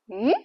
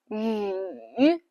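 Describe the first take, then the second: First: The pitch rises like a question. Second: The pitch dips low, then rises. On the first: "Go up" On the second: "Life push you down, and you go up"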